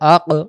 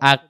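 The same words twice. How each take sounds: First: The final consonant ends with a short echoing bounce. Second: The final consonant stops flat with no echo. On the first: The speaker calls it right. "কলকলাটা আমরা কিভাবে বলবো?" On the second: The speaker calls it wrong. "আওয়াজটা লেগে দেই আক, আরেকটা আওয়াজ আসতেছে না"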